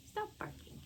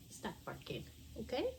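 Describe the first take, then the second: First: High whispered hush; breathy high hush at the dog; hushing a pet. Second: Hushing a pet. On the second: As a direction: hush the dog gently. Scolding the dog. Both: Real, not acted.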